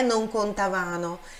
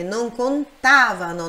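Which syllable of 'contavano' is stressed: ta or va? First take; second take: va; ta. First: The stress falls on the syllable 'va'. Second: The stress falls on the syllable 'ta'. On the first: The speaker calls it wrong. "não é non contavano" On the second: The speaker calls it right. "Pronúncia forte nesse tá"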